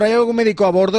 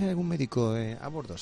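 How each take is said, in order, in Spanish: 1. Se anuncia en voz alta y dramáticamente. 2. Se pregunta en voz baja y discretamente. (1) "no cogen el micrófono la azafata o el azafato de turno y dice" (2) "Van discretamente"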